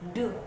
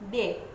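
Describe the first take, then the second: First: It sounds like a short, rounded 'duh'. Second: It sounds like the letter name D. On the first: The speaker calls it right. "tetapi de" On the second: The speaker calls it wrong. "Non D"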